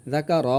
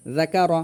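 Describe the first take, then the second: First: "রাকা র" with the final "র" drawn long; two short syllables, then a long "র"; wrongly stretched. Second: "রাকা র" in three short syllables; brief, even "রাকা র", nothing lengthened; no stretch. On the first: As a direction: drag out the last vowel of "রাকা র". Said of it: "আবার অনেকে রতে টান দেয়". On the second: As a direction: keep the final "র" of "রাকা র" short. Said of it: "রতেও জবর রয়েছে". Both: Shown as a demonstration.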